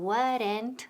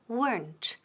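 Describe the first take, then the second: First: The word is said with two syllables. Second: The word is said with one syllable. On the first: The speaker calls it wrong. "ni weren't" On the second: The speaker calls it right. "Decimos weren't, weren't y con T al final. Una sílaba, no dos"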